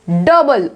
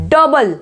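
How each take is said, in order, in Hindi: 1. पहला स्वर छोटी 'uh' आवाज़ है। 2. पहला स्वर छोटी 'uh' आवाज़ है।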